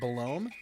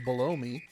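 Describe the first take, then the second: First: It is said as one name, Belome. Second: It sounds like the words below me. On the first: "I've always pronounced it Belome" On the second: "it also reads as below me"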